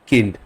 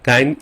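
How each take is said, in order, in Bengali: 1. স্বরধ্বনিটি 'ih'-এর মতো শোনায়। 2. স্বরধ্বনিটি 'eye'-এর মতো শোনায়। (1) "জার্মানে এটা হবে কিন্ড" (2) "কাইন্ড ইংলিশ হতো"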